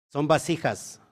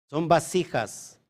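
No difference in how they are said.

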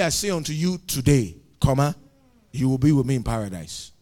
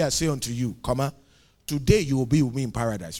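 First: The break comes after "today". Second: The break comes before "today".

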